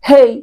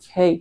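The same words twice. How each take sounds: First: The word is said loudly, with high intensity. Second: The word is said softly, with low intensity. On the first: "কোন কোন আওয়াজটা বেশি তীব্র লাগছে তোমার কাছে? দ্বিতীয়বার না?" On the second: "প্রথমটাতে আমি আস্তে করে হেই এটা বলছি"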